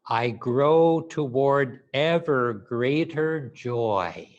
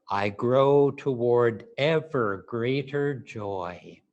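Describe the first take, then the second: Both takes have the same delivery.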